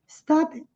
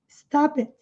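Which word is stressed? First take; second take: stop; stop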